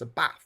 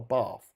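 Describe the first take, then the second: First: The vowel in bath is short and flat. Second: The vowel in bath is long, like barf. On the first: The speaker calls it right. "It's a bath" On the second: The speaker calls it wrong. "not a bath. When I think of bath, I think of someone puking up"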